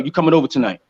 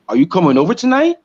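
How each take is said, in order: First: It is said flatly, like a firm statement. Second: It is said with a questioning tune. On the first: The speaker expects it to happen. "this is a declarative statement" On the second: The speaker is unsure and asking.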